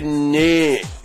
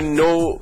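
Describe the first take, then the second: First: The vowel sounds closer to 'eh' or 'a'. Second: The vowel is a plain 'oh' sound. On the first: This is how it comes out in the accent. "میگه نه" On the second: This is the word as intended. "میخواد بگه نو"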